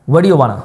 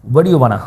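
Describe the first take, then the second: No difference in how they are said.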